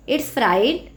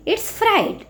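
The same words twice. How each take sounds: First: Said in the usual way. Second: First take of fright pitched high and set apart; modelled answer. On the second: Shown as a demonstration. Teacher modelling the answer for students, high lifted fright. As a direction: sing out fright on a lifted note for the class. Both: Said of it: "what is the spelling of fright?".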